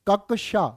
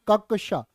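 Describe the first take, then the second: The two takes are said the same way.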